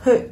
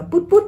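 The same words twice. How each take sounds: First: "put" with short relaxed vowel near "ư"; English "put", vowel loosened toward "ư"; correct put. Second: "put" with a tight Vietnamese "u"; higher, clipped Vietnamese-style "put"; mispronounced put. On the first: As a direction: say "put" as lax "pʊt". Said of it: "mà nó là âm ư". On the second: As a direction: say "put put" wrongly like "pút". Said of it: "Âm này là âm u ngắn". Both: Shown as a demonstration.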